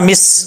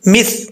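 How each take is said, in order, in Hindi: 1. यह व्यंजन सीटी वाली 's' की आवाज़ है। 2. यह व्यंजन नरम 'th' की आवाज़ है।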